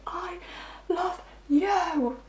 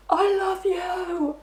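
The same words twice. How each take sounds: First: High, wailing soap-opera cry, starting faint; soap opera sobbing. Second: High, wailing sobbed cry, much higher and drawn out slowly; mock bawling. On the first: Retold or imitated. Reader mocking the partner's tearful confession, hammed-up sob. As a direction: overplay it like a soap star in tears. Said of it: "proper, like, soap opera kind of thing". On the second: Partner bawling a confession to the client, mock wail. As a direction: ham it up like a sobbing lover. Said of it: "they start bawling".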